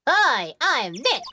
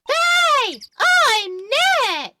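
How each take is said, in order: First: It is said at normal, quieter volume. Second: It is said loudly, almost shouted.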